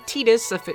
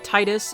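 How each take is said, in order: First: The first syllable rhymes with 'teed'. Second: The first syllable rhymes with 'tide'. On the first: This is the official way most people say it. The speaker calls it wrong. "The rest of the world calls him" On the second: This is the speaker's own preferred way of saying it. The speaker calls it right. "I call him"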